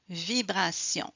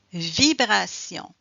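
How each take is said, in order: First: Said in the usual way. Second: "Vibration" slow and louder; vibration demo. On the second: Shown as a demonstration. Teacher showing pupils where the vibration is felt. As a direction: draw out "Vibration" with force.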